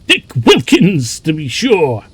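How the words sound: It is said in Fezziwig's jovial voice.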